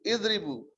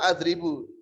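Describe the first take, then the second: First: The word begins with an 'i' vowel. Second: The word begins with an 'a' vowel.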